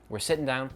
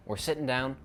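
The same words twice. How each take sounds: The two takes are said the same way.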